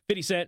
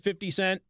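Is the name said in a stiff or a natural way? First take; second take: natural; stiff. First: The name is said in a relaxed, natural way. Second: The name is said in a stiff, awkward way. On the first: The speaker calls it right. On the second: The speaker calls it wrong.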